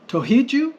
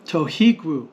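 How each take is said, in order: First: "Tohiju?" rising high at the end; question tune. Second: "Tohigru" with stressed "hi" and falling end; answer tune. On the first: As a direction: ask "Tohiju?" with a strong upward swing. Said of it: "It's a question". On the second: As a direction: answer "Tohigru", coming down after "hi". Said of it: "It's a response to this one". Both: Shown as a demonstration.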